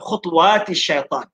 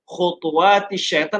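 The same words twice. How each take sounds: First: The 't' is followed by no vowel. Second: The 't' is followed by a short vowel. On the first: "ta itu ada sukun" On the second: "ada baris di atas"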